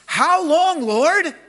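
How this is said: It is said with anguished, deep feeling.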